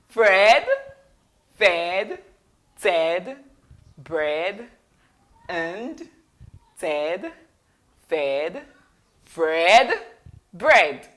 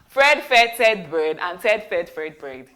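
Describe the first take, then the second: First: It is said slowly, word by word. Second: It is said very fast without breaks. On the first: "I'll say it slowly" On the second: "then we'll say it very fast"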